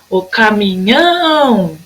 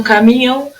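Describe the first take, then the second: First: "caminhão" called out with a very long nhão; chamando, NHÃO esticado. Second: Said in the usual way. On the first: Shown as a demonstration. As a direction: hold the end of "caminhão" like a call. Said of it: "você vai chamar ela". ("caminhão" chamado com o nhão bem comprido)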